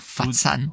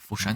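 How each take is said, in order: First: The name is said the Cantonese way. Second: The name is said the standard Mandarin way.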